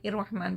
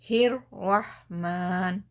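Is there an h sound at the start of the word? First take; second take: no; yes. First: The word starts with a vowel, no h sound. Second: The word starts with a breathy h from the chest. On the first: The speaker calls it wrong. "बहुत सारे लोग इर्रहमान इर्रहमान पढ़ते हैं, इर नहीं है" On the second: The speaker calls it right. "ये हा सीने से निकल रहा"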